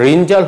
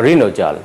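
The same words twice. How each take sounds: First: ঋণজাল said "rin-jal"; no vowel after the n of ঋণজাল; wrong pronunciation. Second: ঋণজাল said "rino-jal"; sounded middle vowel in ঋণজাল; correct pronunciation. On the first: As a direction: join n to j in ঋণজাল. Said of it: "ঋণজাল হবে না". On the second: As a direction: add "o" after the n in ঋণজাল. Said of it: "উচ্চারণ হবে". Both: Shown as a demonstration.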